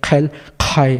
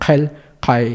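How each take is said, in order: First: "Helkai" drawn out slowly, both consonants aspirated; dos Q aspiradas. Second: "Helkai" with air only on the first consonant; solo primera Q aspirada. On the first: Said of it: "una H también ahí". ("Helkai" lento, con aspiración también en "kai") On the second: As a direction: puff the start of "Helkai", keep "kai" unaspirated. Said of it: "la primera Q sí está influenciada". ("Helkai" con aspiración solo al inicio) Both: Shown as a demonstration.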